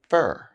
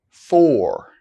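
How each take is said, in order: First: The word is reduced with a weak vowel. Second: The word is said fully with its full vowel. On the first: "then their weak forms" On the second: "I'll say the strong forms of the words first"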